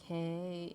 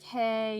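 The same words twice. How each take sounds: First: It is said in a drunken, creepy voice. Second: It is said in a plain voice.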